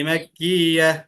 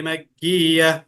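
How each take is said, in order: No difference in how they are said.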